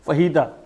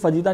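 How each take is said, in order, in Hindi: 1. यह शब्द H की ध्वनि से शुरू होता है। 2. यह शब्द J की ध्वनि से शुरू होता है। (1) "उसकी प्रोनाउंसिएशन है फहीता" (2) "उसकी प्रोनाउंसिएशन फजीता नहीं है"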